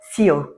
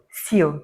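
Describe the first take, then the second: The two takes are said the same way.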